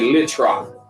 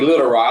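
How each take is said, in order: First: The first word is shortened to one syllable. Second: The first word is said in full, two syllables. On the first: "that's how a lot of the older people say it" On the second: "I ain't gonna say Little Rock"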